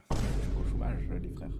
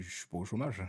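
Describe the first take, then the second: First: Whispered Je suis pas au chômage, as if it's a secret. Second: Said in the usual way. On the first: Shown as a demonstration. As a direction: hush it so the chat can't hear. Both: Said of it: "Dinguerie de, de dire ça devant tout le monde".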